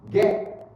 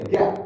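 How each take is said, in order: First: "get" stopped short, T not released; silent final T. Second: "get" with a popped T at the end; released final T. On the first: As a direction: cut "get" off before the T pops. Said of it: "or you might silent". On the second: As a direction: pop the T in "get". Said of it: "you can sound the pap sound". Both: Shown as a demonstration.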